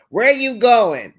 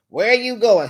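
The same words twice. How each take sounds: First: Loud, slow demanding bark; correctional officer. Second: Louder, stern guard demand; correctional officer again. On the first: Woman interrogating her man like a prison guard. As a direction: question him like a guard would. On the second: Woman grilling her man like a prison guard. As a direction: bark it like a jailer checking on him. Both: Retold or imitated. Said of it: "acting like a correctional officer".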